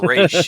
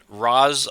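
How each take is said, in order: First: The first syllable has an 'ay' vowel. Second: The first syllable has an 'ah' vowel. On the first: "or Raish Al Ghul?" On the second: "Is it Raz Al Ghul"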